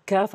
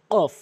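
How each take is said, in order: First: "কাফ" with a light k, a little forward of the tongue root; front k. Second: "কফ" with a heavy q from the tongue root; back q. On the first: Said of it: "জিহ্বার গোড়া হতে একটু আগে বাড়াইয়া". ("কাফ" জিহ্বার গোড়ার একটু আগে থেকে) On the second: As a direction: say "কফ" far back against the palate, rounded vowel. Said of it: "কফটি হচ্ছে জিহ্বার গোড়া". ("কফ" জিহ্বার গোড়া থেকে ভারী করে) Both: Shown as a demonstration.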